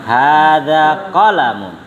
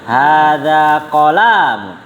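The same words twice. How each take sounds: First: All vowels in qalamun are short. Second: The middle vowel of qalamun is lengthened. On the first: The speaker calls it right. "Qalamun pendek semua" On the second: The speaker calls it wrong.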